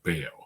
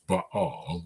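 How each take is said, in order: First: The name is said in its anglicized pronunciation. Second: The name is said in its original pronunciation. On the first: "in English we usually just say Baal" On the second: "the right way to pronounce it is Baal"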